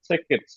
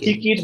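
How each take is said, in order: First: The first vowel sits between 'ee' and 'eh'. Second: The first vowel sounds like a full 'ee'. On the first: The speaker calls it right. "দুইটার মাঝামাঝি।" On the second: The speaker calls it wrong. "একেবারে ই না"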